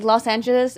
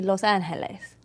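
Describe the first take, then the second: First: Said in the usual way. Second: "Los Angeles" said the Spanish way, with an h sound for the g; soft Spanish "Los Angeles"; Spanish pronunciation. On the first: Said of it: "All these names, like". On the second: Shown as a demonstration. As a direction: say "Los Angeles" as lohs AHN-heh-les. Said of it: "it's supposed to be".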